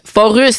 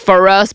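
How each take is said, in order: First: The name is said with a French accent. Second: The name is said with an English accent. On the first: "I always pronounced it with the French accent" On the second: "So I would say For Us, but I don't know"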